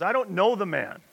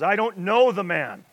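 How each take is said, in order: First: Said in the usual way. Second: Louder, higher sworn denial; cursing denial. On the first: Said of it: "he denied it again with an oath". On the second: Retold or imitated. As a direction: swear it at them, heated. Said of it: "Then he began to call down curses".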